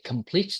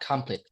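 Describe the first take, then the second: First: The stress is on the second syllable. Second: The stress is on the first syllable. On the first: The speaker calls it right. "second stress" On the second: The speaker calls it wrong. "not complete"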